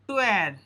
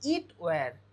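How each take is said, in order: First: It is said as one contracted syllable. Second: It is said as two full words. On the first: The speaker calls it wrong. "এটা টোয়ার উচ্চারণ হবে না" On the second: The speaker calls it right. "আমরা এটাকে বলবো ইট ওয়্যার"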